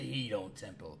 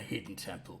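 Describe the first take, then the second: First: The first word sounds like 'hedon'. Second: The first word sounds like 'hidden'. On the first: The temple is a place of hedonism. "I like to think of it as a hedon temple, on account of the hedonism" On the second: The temple is a concealed place. "some people call it a hidden temple"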